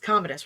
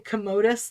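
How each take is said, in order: First: The name does not sound like commode. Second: The name sounds like the word commode. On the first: The speaker calls it right. "But it's not. It's Commodus" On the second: The speaker calls it wrong. "I keep wanting to say Commodus like a toilet"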